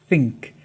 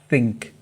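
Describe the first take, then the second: Both takes have the same delivery.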